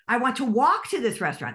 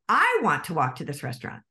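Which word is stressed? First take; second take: walk; I. First: The word "walk" carries the main stress. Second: The word "I" carries the main stress. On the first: Someone else wants to drive instead. "That means that somebody else wants to drive" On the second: Someone else does not want to walk there. "That means that somebody else doesn't"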